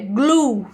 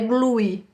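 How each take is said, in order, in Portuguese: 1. Termina limpo, num som de u forte. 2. Termina com um som de vogal e extra. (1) "Termina aqui com o U bem forte" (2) "A gente não pronuncia o E no final, tá? Não é glue"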